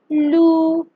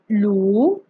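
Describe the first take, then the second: First: The pitch stays high and level. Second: The pitch rises from mid to high. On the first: "First tone. It has the highest pitch" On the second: "also known as the rising tone"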